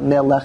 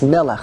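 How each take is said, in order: First: The stress is on the last syllable. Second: The stress is on the first syllable. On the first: The speaker calls it wrong. "So it's not Melech" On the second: The speaker calls it right. "so always the first"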